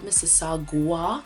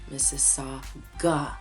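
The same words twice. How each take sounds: First: A w sound follows the g. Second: The g goes straight into the vowel. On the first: The speaker calls it wrong. "not Mississauga" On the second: The speaker calls it right. "There's no U after the G"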